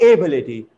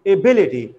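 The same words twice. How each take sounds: First: "ability" said A-bility; wrong stress, first syllable. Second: "ability" said a-BIL-ity, falling after "bil"; stress on second syllable. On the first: Teacher showing what not to say, stress on first syllable. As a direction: put the weight on the opening vowel of "ability". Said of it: "not ability". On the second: Teacher correcting the mistake, stress on second syllable. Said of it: "falls on the second syllable". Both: Shown as a demonstration.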